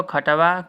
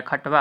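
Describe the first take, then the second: First: खटवा read as kha-ta-va with a full vowel after ट; खटवा with the ट fully voiced; option read aloud. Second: खटवा with ट half, no vowel after it: khat-va; खटवा said as khat-va, two syllables; halant on ट. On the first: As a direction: say खटवा in three open syllables. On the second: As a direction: clip the ट in खटवा straight into व. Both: Shown as a demonstration. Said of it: "ट पे हलंत होता है".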